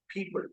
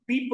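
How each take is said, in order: First: The first sound is voiceless. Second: The first sound is voiced. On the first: The speaker calls it right. "it is people" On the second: The speaker calls it wrong. "It is not people"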